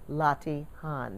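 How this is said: The word is said with a British accent. "That's the British way of saying it"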